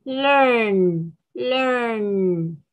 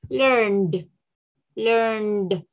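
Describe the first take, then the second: First: "learn" drawn out on a humming "n"; slow, isolated "learn"; careful base form. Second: "learned" ending in a voiced "d"; careful "learned" with released "d"; final d sound. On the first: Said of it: "¿Cómo así?". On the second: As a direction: close "learned" on a clear "nd". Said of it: "esa E D, ¿cómo va a sonar?". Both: Shown as a demonstration.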